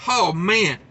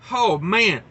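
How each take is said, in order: Both takes have the same delivery.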